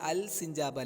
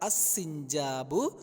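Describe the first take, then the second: First: The l is pronounced before the s. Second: The l merges into the s sound. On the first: The speaker calls it wrong. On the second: The speaker calls it right.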